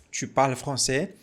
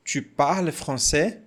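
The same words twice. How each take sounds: The two takes are said the same way.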